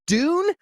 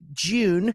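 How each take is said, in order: First: It is said in an American accent. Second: It is said in a British accent.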